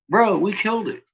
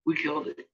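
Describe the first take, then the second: First: High, pumped-up "Bro, we killed it"; excited. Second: Much softer "We killed it", to himself; quiet. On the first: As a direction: cheer the win, voice up high. Celebrating beating the trolls. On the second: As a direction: let the repeat drop to a murmur. Repeating the win to himself. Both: Real, not acted.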